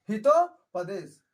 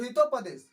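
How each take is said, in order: First: Hitopadesha slowly, split as हितो, then पदेश; slow dictation. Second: Said in the usual way. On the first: Shown as a demonstration. Teacher repeating a book title for students, Hitopadesha in slow, separated parts.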